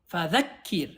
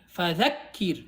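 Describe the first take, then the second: Both takes have the same delivery.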